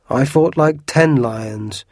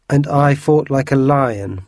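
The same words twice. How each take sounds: First: Ten punched, slow and loud; bragging, stress on ten. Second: Slow, loud and boastful; bragging. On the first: Porthos topping his own lion boast, stressing ten. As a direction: hit ten lions hard and slow, bragging. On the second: Porthos boasting to his friends, slow and loud. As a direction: puff up and brag, drawing it out. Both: A narrator's reading. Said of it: "bragged Porthos".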